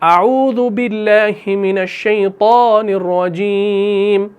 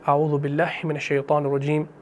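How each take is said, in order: First: The phrase is said loudly, in a raised voice. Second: The phrase is said softly, in a low voice. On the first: It does not match the quiet recitation that follows. The speaker calls it wrong. "ऐसे नहीं करना" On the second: It matches the quiet recitation that follows. The speaker calls it right. "आप जब क़िराअत को धीमी आवाज़ में पढ़ रहे हैं तो आपने आऊज़ु को भी आहिस्ता पढ़ना है"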